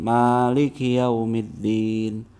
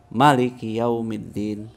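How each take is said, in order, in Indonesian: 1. Vokal setelah m dibaca panjang. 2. Vokal setelah m dibaca pendek.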